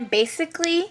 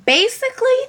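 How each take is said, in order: First: Said in the usual way. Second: Squeaky repeat. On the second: Acted. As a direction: repeat basically in a high squeak.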